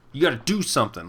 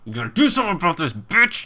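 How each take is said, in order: First: Said in the usual way. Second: Fast, pushy, ending on a sharp high bitch!; mock demanding viewer. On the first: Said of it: "re-quoting the demand". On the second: Streamer mimics a pushy viewer, fast and demanding. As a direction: rattle off the demand like an entitled fan. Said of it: "trying to, quoting chat".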